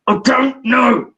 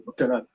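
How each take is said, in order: First: Loud, drawn-out retold outburst; acting a child pushed too far; exasperated boy. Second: Low, soft brush-off; quiet, retold shrug of an answer; reluctant boy. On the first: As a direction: stretch each word in mock frustration. Pushed boy finally bursts out. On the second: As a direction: mumble it like a cornered child. Boy's first reluctant answer.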